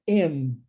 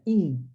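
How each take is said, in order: First: The vowel sounds closer to an 'e' sound. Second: The vowel is a Portuguese-style 'i' sound. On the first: The speaker calls it right. "o i tem mais o som de e" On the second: The speaker calls it wrong. "Não é in"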